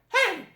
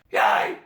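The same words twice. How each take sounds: First: A clean high falsetto with no distortion. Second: A high falsetto with rough, gritty distortion added. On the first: The speaker calls it wrong. "with the falsetto, like hey" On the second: The speaker calls it right. "when we add the distortion, it will sound much, much better"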